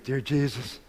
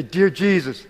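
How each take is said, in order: First: Much softer, lower echo of the prompt; repeating the words back hushed and unsure; new believer softly echoing his first prayer; quiet repeat. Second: Said in the usual way. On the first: Retold or imitated. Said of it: "He goes".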